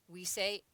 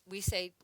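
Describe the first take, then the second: No difference in how they are said.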